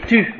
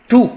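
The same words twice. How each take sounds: First: The word is pronounced with French sound values. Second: The word is pronounced with Latin sound values.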